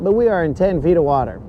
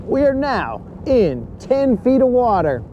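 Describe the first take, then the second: First: "we" stressed, said quickly; quick take hitting "we". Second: "are" pushed up, higher pitch; stress on are. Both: Shown as a demonstration.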